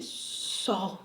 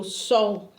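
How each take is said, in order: First: Faint, low, fearful reply; timid near-whisper, retold; trembling. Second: Low but firmer, more audible reply; imitated forced-out answer, full voice; speaking up. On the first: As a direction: answer softly, imitating your trembling self. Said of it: "assim, tremendo". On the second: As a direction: obediently say it aloud, retold. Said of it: "Fala alto".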